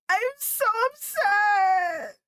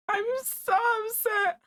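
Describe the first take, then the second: First: High, loud, slow wailing sob; real sobbing shout. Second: Laughing upset. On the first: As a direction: howl it out in real grief. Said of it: "I was really screaming". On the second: Laughing through grief over character. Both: Real, not acted.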